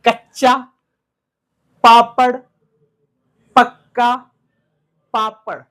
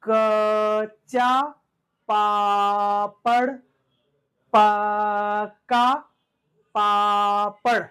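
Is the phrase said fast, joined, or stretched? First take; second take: joined; stretched. First: The words run together like one word. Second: The first sound of each word is drawn out. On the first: "one word के साथ बोलना है" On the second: "उसको हमें खींचकर बोलना है"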